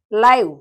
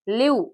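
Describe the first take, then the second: First: Live said as "laiv", punched louder; "ai" vowel. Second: Live said as "leev"; "ee" vowel. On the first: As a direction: give live the vowel of "eye". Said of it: "L I V E". (live ಅನ್ನು "ಲೈವ್" ಎಂದು ಉಚ್ಚಾರಣೆ) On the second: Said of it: "L E A V E". (live ಅನ್ನು "ಲೀವ್" ಎಂದು ಉಚ್ಚಾರಣೆ) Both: Shown as a demonstration.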